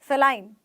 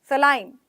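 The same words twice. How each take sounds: No difference in how they are said.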